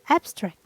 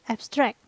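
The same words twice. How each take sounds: First: The stress is on the first syllable. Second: The stress is on the second syllable. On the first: It is used as a noun or adjective. "The stress is placed in the first syllable" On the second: It is used as a verb. "The stress is placed in the second syllable"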